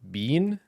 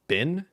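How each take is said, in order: First: The word has a long 'ee' vowel, like bean. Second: The word has a short 'i' vowel, like bin. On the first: "Is it bean?" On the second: "is it bin?"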